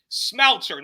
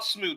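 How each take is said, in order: First: The name is given an English-style pronunciation. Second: The name is given a French-style pronunciation. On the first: The speaker calls it right. "one correction: Smouter" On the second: The speaker calls it wrong. "not Smooter"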